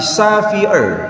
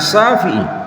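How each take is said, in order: First: The name is said with a Chinese accent. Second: The name is said with an Arabic accent. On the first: "tapi Syafi'ir" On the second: "tidak bisa disebutkan dengan nama Syafi'i"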